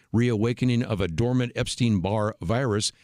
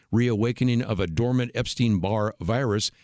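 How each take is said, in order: No difference in how they are said.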